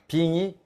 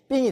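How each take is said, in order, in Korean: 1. 이 음절은 날카롭게 떨어지지 않고 평평하게 발음해요. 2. 이 음절은 긴장되게 날카롭고 떨어지듯 발음해요.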